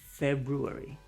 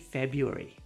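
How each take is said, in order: First: The first R sound is pronounced. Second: The first R sound is skipped. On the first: It sounds fancy. "If you're feeling fancy, say" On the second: It sounds natural. "If you want to sound natural, just say"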